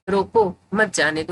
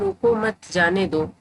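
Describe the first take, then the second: First: There is a pause after रोको. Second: There is a pause after मत.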